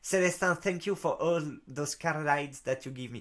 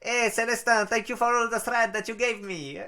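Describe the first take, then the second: First: It is said in a Russian-sounding accent. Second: It is said in an Indian-sounding accent.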